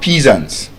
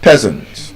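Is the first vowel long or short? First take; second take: long; short. First: The first vowel is long. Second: The first vowel is short. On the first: The speaker calls it wrong. "Both pronunciations wrong" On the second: The speaker calls it right. "They have the short S sound in them"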